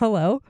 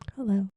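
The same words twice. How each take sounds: First: The greeting is said at a louder volume. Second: The greeting is said very quietly. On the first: The speaker calls it right. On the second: The speaker calls it wrong.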